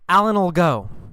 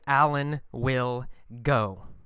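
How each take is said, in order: First: 'Will' is reduced to a short 'ol' sound. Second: 'Will' is said as a full separate word. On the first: "in normal speech, fast speech, we usually say ol" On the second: "we can say Alan will go"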